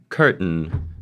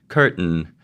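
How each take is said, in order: First: The t is released through the nose. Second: The t is released through the nose.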